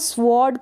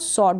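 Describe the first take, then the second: First: A w sound is pronounced after the s. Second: No w sound is pronounced after the s. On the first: The speaker calls it wrong. "आधा व करके इसको pronounce करते तो ये गलत होगा" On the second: The speaker calls it right. "ये जो डब्लू है ये साइलेंट है"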